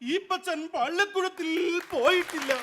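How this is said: It is declaimed in a dramatic street-theatre style. "തെരുവ് നാടകത്തിലെ ഒരു നടനാണ് ഇത് പെർഫോം ചെയ്യുന്നത്"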